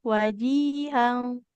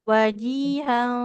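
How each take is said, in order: The two takes are said the same way.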